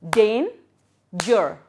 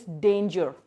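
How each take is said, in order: First: "Dan-ger" in two loud, separate beats; split into syllables. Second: Said in the usual way. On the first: Shown as a demonstration. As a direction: break "Dan-ger" with a pause after DAN. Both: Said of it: "two syllables".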